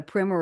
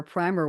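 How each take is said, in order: First: "primer" said to rhyme with swimmer; short-i pronunciation. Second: "primer" said to rhyme with timer; long-i pronunciation. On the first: Host summing up the creativity talk, "primer" said PRIM-er. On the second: Host correcting herself to her guests, "primer" said PRY-mer. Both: Shown as a demonstration.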